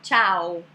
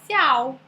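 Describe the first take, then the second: First: The word begins with a ch sound. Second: The word begins with an s sound. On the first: The speaker calls it right. "formam o som de ti" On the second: The speaker calls it wrong. "Que o C com I, em português, né? Tem som de si"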